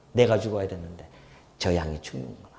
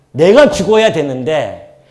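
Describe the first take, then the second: First: Quiet and low on 내가; soft remorseful murmur. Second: Loud and slow, punching 내가; slow, loud stress on 내가; emphatic cry. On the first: Preacher voicing the sinner's remorse at the altar, softly. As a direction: hush it, heavy with regret. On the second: Preacher crying out his guilt to the congregation, loud and slow. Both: Real, not acted.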